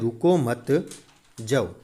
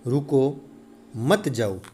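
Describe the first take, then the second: First: There is a pause after the second word. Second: There is a pause after the first word. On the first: The listener is told not to stay but to leave. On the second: The listener is told to stay and not leave.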